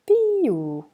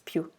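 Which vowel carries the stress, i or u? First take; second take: i; u. First: The stress falls on the i. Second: The stress falls on the u. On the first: "would be più without the accent over the U" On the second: "But with the accent, it's più"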